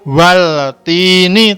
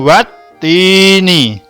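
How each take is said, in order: First: An audible l sound is heard inside the word. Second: No l sound is heard inside the word. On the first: The speaker calls it wrong. "tidak waltini" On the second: The speaker calls it right. "tapi langsung watini"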